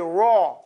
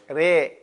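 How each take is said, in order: First: The vowel is a rounded, deep 'aw'. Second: The vowel is an open, light 'eh'. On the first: "Itbaq is making it oblong, oval, like an egg on its side. Aw. Like you say raw" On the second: "in Warsh we say re. And we do it fat"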